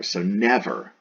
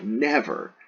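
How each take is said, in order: First: Said in the usual way. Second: Never raised high and punched hard; emphatic never. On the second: Shown as a demonstration. Teacher stresses the Latin numquam, emphatic never. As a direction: hit the word never hard, high and final. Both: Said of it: "an emphatic".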